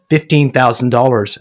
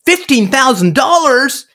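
First: Said in the usual way. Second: Much higher, slow, astonished question; incredulous echo. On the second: Retold or imitated. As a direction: echo the price back in disbelief. Buyer echoes the price.

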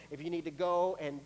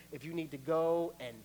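Both takes have the same delivery.

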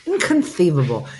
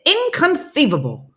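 First: Said in the usual way. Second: High, loud stretched movie quote; hammed-up Vizzini inconceivable; Princess Bride inconceivable. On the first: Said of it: "If I see the word inconceivable". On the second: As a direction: blurt it like the Princess Bride character. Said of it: "that's how I have to say it".

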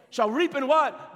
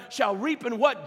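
First: Slower, louder call with reap stressed; preacher demanding the congregation answer back; emphatic repeat. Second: Said in the usual way. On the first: Real, not acted.

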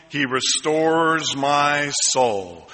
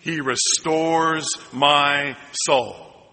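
First: Slow, deliberate scripture reading; solemn slow line for the congregation to echo; slow recitation. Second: Slow call-and-response line; drawn-out echo of the verse; slow congregational repeat. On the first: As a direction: let each word land slowly. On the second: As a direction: say it slowly together. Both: Shown as a demonstration. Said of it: "Can you say that with me".

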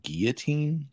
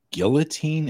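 First: Put-on "guillotine" as gee-yuh-teen, L silent; French-style pronunciation. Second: "guillotine" with the L sounded; questioned pronunciation. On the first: Co-host correcting the host, "guillotine" said French-style. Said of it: "Did you say guillotine?". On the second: Co-host querying the host's word, "guillotine" with a sounded L. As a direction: say "guillotine" the English way, L pronounced. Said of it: "Isn't it guillotine?". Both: Shown as a demonstration.

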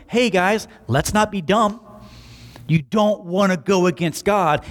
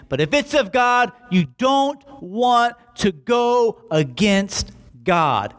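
First: Breezy, offhand modern retelling; casual paraphrase. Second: Slow, weighty high warning; solemn warning. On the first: Teacher casually telling the council off, breezy offhand tone. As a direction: toss it off like a buddy's advice. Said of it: "listening to his teacher going". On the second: Teacher Gamaliel warning the council, slow grave caution. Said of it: "his teacher looks at them and says". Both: Retold or imitated.

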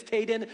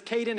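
First: "Taden" with a T in place of the K sound; child's mispronunciation. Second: Said in the usual way. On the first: Retold or imitated. Uncle showing how his nephew says a cousin's name, "Taden" with a T. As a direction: imitate a small child saying "Taden", starting on T. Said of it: "when he says Caden, it's Taden". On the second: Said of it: "but when he says Caden".

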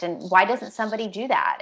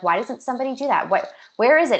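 First: Said in the usual way. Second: Quick, exasperated retold question, louder at the end; frustrated. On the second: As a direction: replay her frustration, rushing. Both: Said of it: "she was really frustrated".

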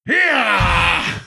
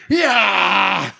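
First: Sharp high battle yell; a short, high tennis grunt. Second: High battle cry yell; tennis grunt. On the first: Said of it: "Can she attack or fight without going". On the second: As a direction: let out a high warrior grunt. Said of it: "Screams no matter what". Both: Retold or imitated.

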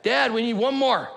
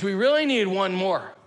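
First: High, loud call-out to Dad; imitated kid's yell. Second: Put-on high, louder kid's plea; imitated insistent son. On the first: Son yelling up to dad on the deck, imitated kid's yell. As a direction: call up to the deck like an eager kid. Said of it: "So he yells out to the deck". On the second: Son begging dad to join the game, imitated insistent plea. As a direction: press Dad in a raised, lightly voiced kid voice. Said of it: "He says".

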